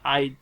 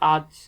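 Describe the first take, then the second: First: An extra 'i' vowel comes before the final consonant. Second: It is said without an added 'i' vowel.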